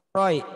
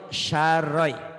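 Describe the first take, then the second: First: The word begins with a plain s sound. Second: The word begins with a sh sound. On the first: The speaker calls it wrong. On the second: The speaker calls it right.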